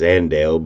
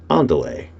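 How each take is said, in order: First: It is said like the Spanish word Andale. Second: It is said as two words, on delay. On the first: The speaker calls it wrong. "the improper way to pronounce that is Andale" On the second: The speaker calls it right. "but it's really on delay"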